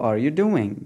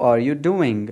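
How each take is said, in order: No difference in how they are said.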